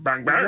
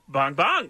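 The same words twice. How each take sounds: First: The pitch is flat with little inflection. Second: The pitch is high with lively inflection. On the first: The speaker calls it wrong. "You went bong bong" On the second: The speaker calls it right. "He had a bit of a high... He had like a cool inflection"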